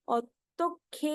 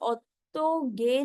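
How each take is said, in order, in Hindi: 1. आखिरी व्यंजन महाप्राण k है। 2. आखिरी व्यंजन अल्पप्राण g है। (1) "क्या होता है" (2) "इट इज ओत्तोगे नहीं होता है"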